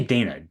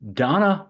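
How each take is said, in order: First: The first vowel is an 'ay' sound. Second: The first vowel is an open 'ah' sound. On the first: The speaker calls it wrong. "She doesn't say Dana" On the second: The speaker calls it right. "Donna ba- Donna"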